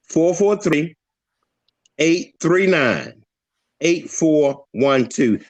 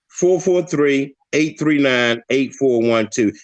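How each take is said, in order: First: The number is said slowly. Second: The number is said quickly.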